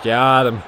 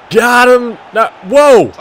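First: Said in the usual way. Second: Higher, louder triumphant call; excited. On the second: Real, not acted. Gamer celebrating a won tackle, loud and pleased. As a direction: cheer as the tackle lands.

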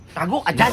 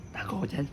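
First: Said in the usual way. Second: Hushed whisper while hiding. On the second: Real, not acted. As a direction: keep it hushed so he won't hear. Telling friend to hide.

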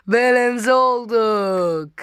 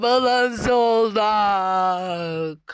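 First: Said in the usual way. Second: Drawn-out triumph. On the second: Real, not acted. Slow drawn-out victory.

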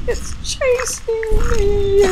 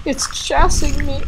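First: High, drawn-out panic; scared, higher and slow. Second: Said in the usual way. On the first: Real, not acted. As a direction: stretch it out in fear.

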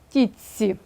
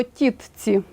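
First: «тітці» said with a long ц, "titsi"; pronunciation demo. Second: Said in the usual way. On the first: Shown as a demonstration. Teacher showing the spoken form of «тітці». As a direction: merge т into ц in «тітці». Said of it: "а вимовляємо". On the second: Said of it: "пишемо".

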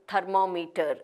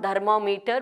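First: Thermometer starting with an unvoiced th; correct pronunciation. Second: Thermometer starting with d, "dhermometer"; wrong pronunciation. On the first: Teacher correcting the error, correctly pronounced. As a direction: say thermometer with a puffed t-h sound. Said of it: "not thermometer, but". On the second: Teacher showing the error, mispronounced. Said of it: "not thermometer". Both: Shown as a demonstration.

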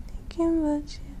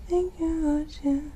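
The two takes are said the same way.

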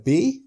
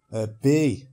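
First: "Bee?" high and loud, questioning; puzzled question. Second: Said in the usual way. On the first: Retold or imitated. Polish woman to stung man, puzzled high "Bee?". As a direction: say "Bee?" as a raised, baffled question. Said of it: "Looking at me puzzled".

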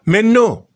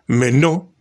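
First: High, loud outburst of disbelief; indignant exclamation. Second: Said in the usual way. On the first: Real, not acted. Vlogger rejecting the rumour to viewers, indignant high outburst. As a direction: throw it up high like you can't believe it.

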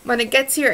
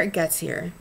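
First: Louder, higher correction of the slip; a loud, emphatic restart after the fumble; corrected take. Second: Said in the usual way. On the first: Shown as a demonstration. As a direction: punch the fixed phrase out firmly.

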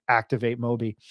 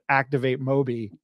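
First: Lightly done robot voice. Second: Said in the usual way. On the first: Retold or imitated. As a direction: say it like a monotone robot. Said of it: "a robot voice in my head saying". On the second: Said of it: "but she said".

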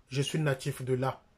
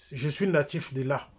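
The two takes are said the same way.

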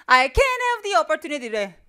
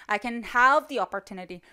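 First: "can" stressed, slow and proud, with a mock voice; wrong stress, mocking. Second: "have" stressed, slow and somewhat soft. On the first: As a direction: overplay "can" like a proud learner. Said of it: "잘못된 강세를 막 줘". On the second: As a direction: lean on the verb "have" and not on "can". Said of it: "강세를 주려면 그 뒤에 따라오는 동사". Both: Shown as a demonstration.

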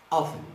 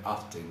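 First: "Often" with the T left silent; "Often" pronounced without any T sound. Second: "Often" with the T sounded; lower, softer "Often" with a clear T; British variant. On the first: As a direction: say "Often" as OFF-en, dropping the T. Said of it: "Geralmente não se pronuncia esse T". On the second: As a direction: say "Often" as OFF-ten, T audible. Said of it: "Em inglês britânico não se pronuncia". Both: Shown as a demonstration.

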